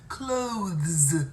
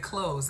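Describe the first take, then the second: First: The 'th' sound is clearly said before the final s. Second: It sounds like close, with no 'th' sound. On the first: The speaker calls it right. "It's got a T H in it" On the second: The speaker calls it wrong. "Most people say clothes as in the door"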